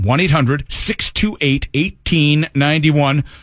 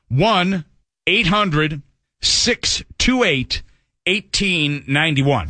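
First: The number is read at normal, quick pace. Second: The number is read slowly and deliberately.

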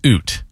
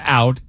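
First: It is said in a Canadian accent. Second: It is said in a standard American accent.

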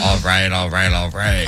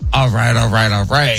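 First: It is said in a deeper voice. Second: It is said in his normal voice.

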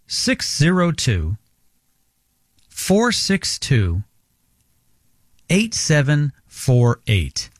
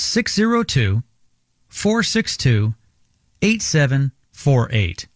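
First: The number is said more slowly. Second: The number is said at normal speed.

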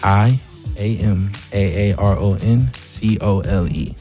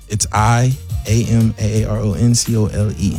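First: It is said more slowly. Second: It is said at a normal pace.

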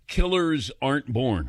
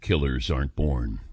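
First: It is said in his normal speaking voice. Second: It is said in a dramatic announcer voice.

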